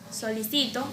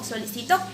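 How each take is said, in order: First: The stress is on the third syllable. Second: The stress is on the fourth syllable.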